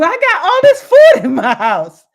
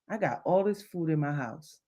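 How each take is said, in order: First: High, loud, laughing with joy; delighted. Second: Low, quiet, deflated; glum. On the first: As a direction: shout it like great news. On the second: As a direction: say it downcast, as if it's a burden. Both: Shown as a demonstration. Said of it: "Same thing, different emotion".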